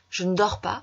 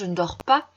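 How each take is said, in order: First: 'Ne' is said weakly, barely heard. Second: 'Ne' is said fully; the ending is louder. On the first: "le ne va s'affaiblir" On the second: "on prononce plus fort la fin de la phrase"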